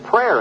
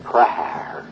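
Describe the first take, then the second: First: The word is said in a plain, ordinary way. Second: The word is drawn out in a sugary, pious tone. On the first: It is a simple, sincere request. The speaker calls it right. "they don't say prayer anymore" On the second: It is a showy religious pretense. The speaker calls it wrong. "sticky, sugary, honey-sweet, pseudo-sanctimonious"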